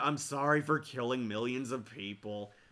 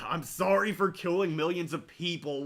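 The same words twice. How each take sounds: First: It is said quietly, mumbled. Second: It is said loudly and grudgingly.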